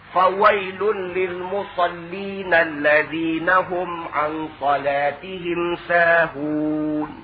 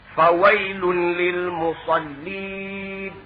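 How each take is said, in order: First: The recitation runs on past 'musallin' without stopping. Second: The recitation stops right after 'musallin'. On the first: Woe to those who pray but are heedless of their prayer. The speaker calls it right. "Dia kena habiskan ayat itu" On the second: Woe to those who pray. The speaker calls it wrong. "Dia berhenti dulu"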